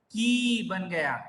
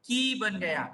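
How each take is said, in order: First: "की" with a slow, stretched ee; long ee demo. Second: "की" with the shorter i vowel; short i demo. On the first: Teacher showing the big ee matra, drawn-out demonstration. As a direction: hold the vowel in "की" long. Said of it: "बड़ी ई की मात्रा". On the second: Teacher showing the small i matra, demonstrative. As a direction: keep the vowel in "की" brief. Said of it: "छोटी ई की मात्रा देखिए". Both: Shown as a demonstration.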